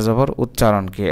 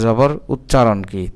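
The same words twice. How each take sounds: The two takes are said the same way.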